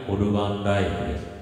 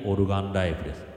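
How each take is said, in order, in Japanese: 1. 長いエコーが声のあとに残っている。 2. 短くて軽いエコーがかかっている。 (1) "これエコーをかけた状態です。" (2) "今、軽めのエコーですね。"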